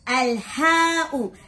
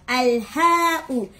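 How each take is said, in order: The two takes are said the same way.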